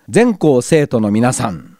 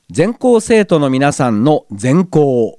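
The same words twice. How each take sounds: First: Slow 全校 with the accent on 全 and a fall; Matsuyama accent demo. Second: 全校 said slowly with the accent on 校, falling at the end; slow, careful 全校 with the accent on 校; Nagano accent demo. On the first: Host tries Matsuyama pronunciation for listeners, accent on 全. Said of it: "松山では「ぜ」にアクセントがあって". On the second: Radio host demonstrates the listener's word, slow Nagano accent. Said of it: "善光寺のような発音になるらしいです". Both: Shown as a demonstration.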